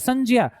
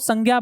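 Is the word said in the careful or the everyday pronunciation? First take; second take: careful; everyday. First: It is said with a j sound joined to a nasal. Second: It is said the common everyday way. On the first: The speaker calls it right. "हकीकत में तो इसका उच्चारण क्या बनेगा, संज्ञा बनता है" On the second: The speaker calls it wrong. "हम इसको संज्ञा बोलते हैं, परंतु ये संज्ञा नहीं होता है ना"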